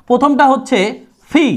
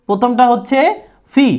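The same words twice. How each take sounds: No difference in how they are said.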